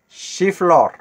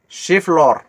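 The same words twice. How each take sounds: The two takes are said the same way.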